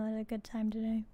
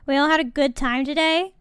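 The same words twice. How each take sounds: First: Quiet deadpan. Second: Bright, louder rising question; rally the viewers cheerfully; upbeat host question. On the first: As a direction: mutter it back worn out. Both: Real, not acted.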